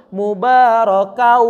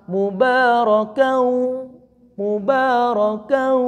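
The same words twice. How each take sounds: First: "mubarakau" with a loud "kau" flowing on unchecked; slow, loud "mubarakau", ending runs on through the mouth; unstopped, no ghunnah. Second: Slow "mubarakau" with "kau" caught in the nose; nasal, caught ghunnah. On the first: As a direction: hold "kauuu" openly in "mubarakau" without catching it in the nose. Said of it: "dia maju terus". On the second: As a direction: draw out "mubarakau", the ending pinched into a nasal hum. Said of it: "itu langsung tersendat". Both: Shown as a demonstration.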